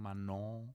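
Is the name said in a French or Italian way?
French. It is said with a French nasal vowel. "French diphthong"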